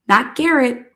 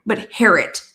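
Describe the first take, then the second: First: "Garrett" said with a hard G at the start; wrong name. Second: "Harrett" said with an H at the start; right name. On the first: Correcting the name for viewers, first the wrong "Garrett" with a G. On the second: Correcting the name for viewers, now the right "Harrett" with an H. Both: Shown as a demonstration.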